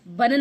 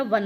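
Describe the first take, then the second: First: Louder वन said with b, "ban"; wrong initial consonant. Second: वन with a v, "van"; correct initial consonant. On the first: Teacher showing the mistake, वन as louder "ban". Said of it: "वन नहीं होता". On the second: Teacher correcting the mistake, वन with a v. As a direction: say वन as "van", not "ban". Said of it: "वन होता है". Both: Shown as a demonstration.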